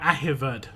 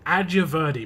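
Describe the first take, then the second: First: The J is said like an H. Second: The J is said like an English J. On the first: The speaker calls it right. "They don't pronounce the J's" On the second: The speaker calls it wrong. "I'm pronouncing it completely wrong"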